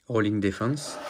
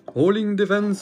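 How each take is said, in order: First: Said in the usual way. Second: High, hammed-up cartoon hero calling the attack; anime attack call. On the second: Collector acting out Shun's attack for viewers, high anime hero call. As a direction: belt it out like Shun launching his move. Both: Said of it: "Je le fais bien quand même".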